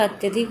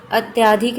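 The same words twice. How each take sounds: First: अत्यधिक with a short अ after त्य; correct form said aloud. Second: अत्याधिक with a long आ after त्य; wrong spelling said aloud. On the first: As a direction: keep अत्यधिक short: अत्-य-धिक. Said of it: "अत्यधिक होता है". (अत्यधिक, त्य के बाद छोटा अ) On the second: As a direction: stretch the आ in अत्याधिक: अत्-या-धिक. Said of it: "अत्याधिक नहीं होता". (अत्याधिक, त्य के बाद लंबा आ) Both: Shown as a demonstration.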